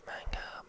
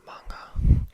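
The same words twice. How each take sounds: First: Manga said with a short flat a, soft g barely there; first pronunciation. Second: Manga said as mahn-gah with open a and hard g; corrected pronunciation. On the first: Correcting her own pronunciation of manga, first try. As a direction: say manga as man-uh, rushed. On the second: Correcting her own pronunciation of manga, fixed take. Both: Shown as a demonstration. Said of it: "self-correction of the word".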